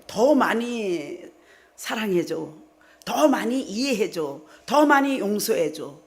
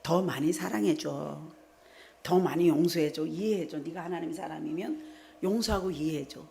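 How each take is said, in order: First: Slow, louder insistent demand. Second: Gentle plea from the Lord. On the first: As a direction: stretch each word out as a pushy demand. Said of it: "자꾸 요구해요". (남편에게 자꾸 요구받는 듯 느리고 크게 조르는 말투) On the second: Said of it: "주님이 이랬잖아요". (주님이 성도에게 부드럽게 타이르듯 조용히) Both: Retold or imitated.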